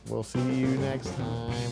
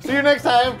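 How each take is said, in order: First: It is said with low energy. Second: It is said with high energy.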